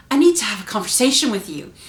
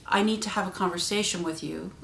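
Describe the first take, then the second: First: Loud, stern demand. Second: Said in the usual way. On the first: Shown as a demonstration. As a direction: say it loudly, like someone is in trouble. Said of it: "In the way you say it". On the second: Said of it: "says something in a certain tone".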